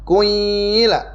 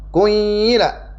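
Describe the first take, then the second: First: The first vowel is rounded, moving from u to i. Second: The same.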